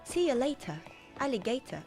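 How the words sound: It is said in a British accent. "If it was British accent, it would be like"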